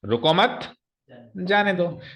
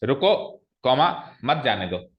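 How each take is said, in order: First: "रुको मत" together and rising, pause, then "जाने दो"; comma after मत. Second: "रुको" rising, pause, then "मत जाने दो"; comma after रुको. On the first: Teacher showing how a comma changes meaning, pause after "मत". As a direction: break after "मत", let "जाने दो" fall. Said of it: "मत के आगे लगा दिया". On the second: Teacher showing how a comma changes meaning, pause after "रुको". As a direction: break right after "रुको", keep "मत जाने दो" together. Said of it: "comma रुको के बाद लगाया". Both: Shown as a demonstration.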